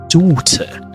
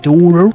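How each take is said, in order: First: The T is a crisp, clear T sound. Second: The T is a soft, flapped sound. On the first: "clear, crisp T sounds" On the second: "American tend to say daughter"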